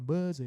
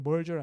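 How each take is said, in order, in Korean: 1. r 소리는 빠집니다. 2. r 소리는 분명히 발음됩니다. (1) "영국 애들은 알 발음이 받침이면 잘 안 하기 때문에 … 약간 merge 이렇게 되는" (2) "merger 아니라"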